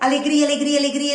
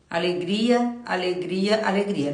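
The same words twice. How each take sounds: First: The word is said in a happy, lively voice. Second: The word is said in a sad, flat voice. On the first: The speaker calls it right. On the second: The speaker calls it wrong.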